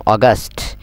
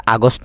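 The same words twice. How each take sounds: First: অগাস্ট with rounded start, "o-gast"; corrected AUGUST. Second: আগস্ট with open "aa" and o, "aa-gost"; mistaken AUGUST. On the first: Teacher correcting students, অগাস্ট as "o-gast". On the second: Teacher showing students the mistake, আগস্ট as "aa-gost". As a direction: start আগস্ট on "aa". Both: Shown as a demonstration. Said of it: "আগস্ট ন হইম".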